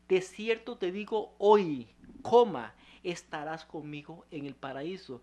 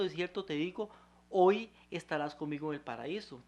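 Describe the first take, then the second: First: The pause comes after the word hoy. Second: The pause comes before the word hoy.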